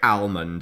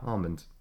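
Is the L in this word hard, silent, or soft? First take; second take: hard; soft. First: The L is pronounced clearly and strongly. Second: The L is pronounced lightly and softly. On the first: "some people say almond and hit the hard L" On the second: "I sort of do a soft L"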